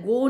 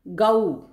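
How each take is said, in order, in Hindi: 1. स्वर एक स्थिर ध्वनि की तरह रहता है। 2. स्वर एक ध्वनि से दूसरी ध्वनि की ओर सरकता है। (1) "गो नहीं बोला जाता, ओ साउंड नहीं है उसमें" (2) "गऊ बोला जाता है"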